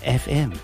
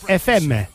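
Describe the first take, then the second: First: It is said in a plain English accent. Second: It is said in a Spanish accent.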